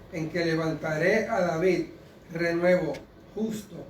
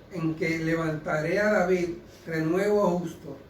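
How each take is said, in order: Both takes have the same delivery.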